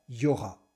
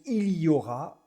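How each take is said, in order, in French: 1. Le son L de il ne se prononce pas. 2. Le son L de il se prononce. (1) "on dit tout simplement" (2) "au lieu de dire"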